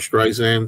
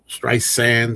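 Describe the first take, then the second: First: The second syllable starts with a z sound. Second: The second syllable starts with an s sound. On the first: The speaker calls it wrong. "People get after me if I say a Z sound" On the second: The speaker calls it right. "excuse me"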